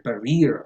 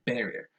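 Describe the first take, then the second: First: Barrier said buh-REE-er; misplaced stress. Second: Barrier said BAIR-ee-er, softly; soft correction, hitting BAR in barrier; stress on first syllable. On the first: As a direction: demonstrate mistaken barrier, beat on the second syllable. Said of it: "I hear barrier a lot". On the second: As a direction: barrier with a full first vowel. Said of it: "the stress goes on the first syllable". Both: Shown as a demonstration.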